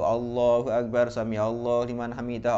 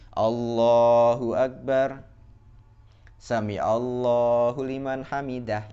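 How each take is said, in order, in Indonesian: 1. Kedua frasa menyambung tanpa jeda. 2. Jeda yang jelas memisahkan kedua frasa. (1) "kalau langsung di, dibablaskan gitu" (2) "jedanya itu bunyinya gini"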